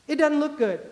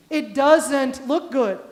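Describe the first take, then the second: First: "doesn't" slurred as "dudn't"; Southern dropped sounds. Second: "doesn't" slowly and fully sounded, louder; careful standard pronunciation. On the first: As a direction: say "doesn't" like "dudn", casual small-town Southern. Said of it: "I grew up and I said things like". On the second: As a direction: translate it, enunciating "doesn't" with a clear z. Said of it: "Do you all know what that means?". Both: Shown as a demonstration.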